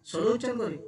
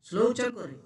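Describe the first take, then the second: No difference in how they are said.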